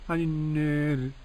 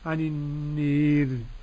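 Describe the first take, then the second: First: The long a is slightly raised toward e. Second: The long a is strongly raised toward e. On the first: "بالتقليل" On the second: "بالإمالة"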